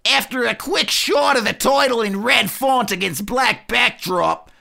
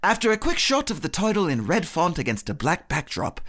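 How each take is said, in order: First: It is said in a sneering Australian accent. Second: It is said in an English accent.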